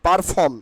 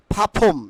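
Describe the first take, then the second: First: "perform" said par-fom with a sounded r; the wrong "perform", first syllable "par"; common mispronunciation. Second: "perform" said pha-phom, r dropped, puffed p; breathy burst on the p of "perform", no r; corrected pronunciation. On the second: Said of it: "It will be". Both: Shown as a demonstration.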